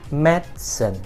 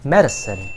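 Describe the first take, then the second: First: The word is said with two syllables. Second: The word is said with three syllables. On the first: "which only has two syllables" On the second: "the pronunciation that has three syllables"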